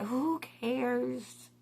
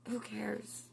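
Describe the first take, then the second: First: Said in the usual way. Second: Breathy whispered, no voice at all. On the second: Shown as a demonstration. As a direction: whisper it softly like ASMR.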